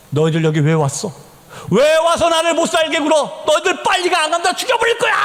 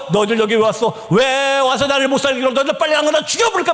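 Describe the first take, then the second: First: Retold demonic shouting. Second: Quicker, milder replay of the threat; retold possessed shouting. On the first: Possessed youth driving the missionaries away, retold rising shout. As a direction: build to a possessed, menacing yell. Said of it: "막 소리 지릅니다". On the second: Possessed sister threatening the team, retold hurried cry. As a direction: rattle off a possessed threat, rushing the end. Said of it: "막 소리 지르기 시작했습니다".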